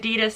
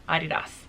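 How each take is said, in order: First: It is said with an American pronunciation. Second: It is said with a German pronunciation.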